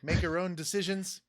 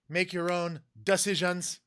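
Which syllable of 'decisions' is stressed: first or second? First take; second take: second; first. First: The stress is on the second syllable of decisions. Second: The stress is on the first syllable of decisions. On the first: "it wasn't like" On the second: "emphasis on the D"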